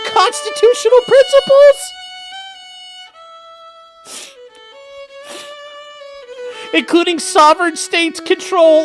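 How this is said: It is read in an imitated woman's voice.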